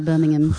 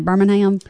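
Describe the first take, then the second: First: It is said with an English accent. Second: It is said with a Southern US accent.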